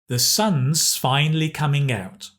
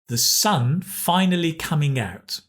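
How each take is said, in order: First: A clear z sound follows the word sun. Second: No clear z sound follows the word sun. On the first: The speaker calls it right. "pronounce the S here with a Z sound" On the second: The speaker calls it wrong. "if I don't get the right pronunciation"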